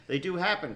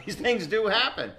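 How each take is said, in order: First: Said in the usual way. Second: Says it through a laugh, pitched up high; chuckling while insisting it happens. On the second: Real, not acted. Host laughing as he assures a sceptical co-host. Host teasing doubtful guest.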